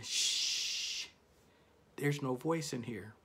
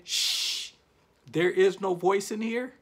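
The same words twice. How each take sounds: First: Whispered shush, breathy and hushed; hushing whisper. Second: Higher and louder hushing line; mock loud shush. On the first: Retold or imitated. Inner voice hushing him in a whisper. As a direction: hush the room like your inner voice. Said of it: "my voice was sitting there saying". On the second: Retelling his inner voice, hushing loudly. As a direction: hush him out loud, playfully. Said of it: "I don't hear you saying".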